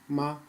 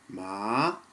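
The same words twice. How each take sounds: First: It is said with the neutral tone. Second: It is said with the second tone. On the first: "neutral tone" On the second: "the second tone"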